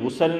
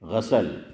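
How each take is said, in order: First: The first vowel is a 'u' sound. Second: The first vowel is an 'a' sound. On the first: The speaker calls it wrong. "गुसल नहीं" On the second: The speaker calls it right. "गैन पर ज़बर"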